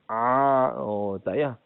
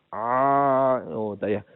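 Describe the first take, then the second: No difference in how they are said.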